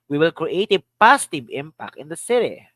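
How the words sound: The stress is on the word "positive".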